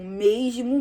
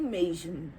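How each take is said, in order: First: Said in the usual way. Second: Fading away. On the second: Real, not acted. Repeating mesmo, fading away.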